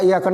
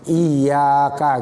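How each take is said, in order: First: The doubled y sound is cut short. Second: The doubled y sound is clearly held. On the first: The speaker calls it wrong. "bukan gitu ya. Itu enggak ada tasdidnya ya" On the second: The speaker calls it right. "Iyyaka gitu"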